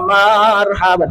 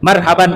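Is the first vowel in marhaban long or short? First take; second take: long; short. First: The first vowel is drawn out long. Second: The first vowel is kept short. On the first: It is read without tajwid rules. "Coba dipanjangin kan" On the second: It follows the tajwid rules. "ya pendek ya"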